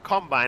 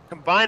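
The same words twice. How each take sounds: First: The stress falls on the first syllable. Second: The stress falls on the second syllable. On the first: It names a machine that does the action. "a combine is something that does it" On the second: It names the action of joining things. "Combine is the action"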